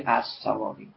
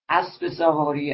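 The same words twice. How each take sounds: First: No linking vowel joins the two words. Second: A linking 'e' vowel joins the two words.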